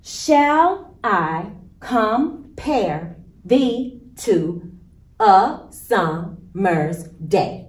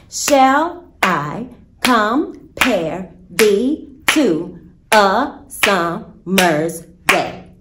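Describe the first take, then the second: First: Slow, beat-by-beat iambic stress; very slow, stressing every second syllable of "Shall I compare thee to a summer's day"; iambic rhythm. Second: Slow and rhythmic, every other syllable hit; very slow da-DUM pulse on "Shall I compare thee to a summer's day"; iambic beat. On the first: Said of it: "I'm going to show you how iambic pentameter in a sonnet sounds". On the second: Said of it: "it is a beat or a rhythm". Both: Shown as a demonstration.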